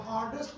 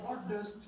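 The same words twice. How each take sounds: First: "हार्डेस्ट" with a full e in the last syllable, "har-dest"; wrong pronunciation. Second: "हार्डेस्ट" with a weak last vowel, "har-dust"; corrected pronunciation. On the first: Teacher showing students what not to say, mispronounced. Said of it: "नहीं बोलना". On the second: Teacher modelling the word for students, corrected pronunciation. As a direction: say "हार्डेस्ट" ending in a short, reduced -ust. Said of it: "ईएसटी और यूएसटी". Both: Shown as a demonstration.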